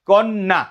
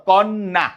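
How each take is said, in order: No difference in how they are said.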